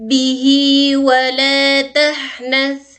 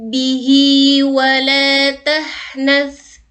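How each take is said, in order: The two takes are said the same way.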